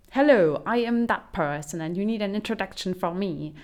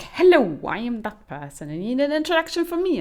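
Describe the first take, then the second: First: Mock stiff introduction. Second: Louder, higher, same stiff greeting repeated; louder repeated mock introduction. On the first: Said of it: "And it's just like". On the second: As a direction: hammer the repetition home, mocking. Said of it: "the next person comes in and is like".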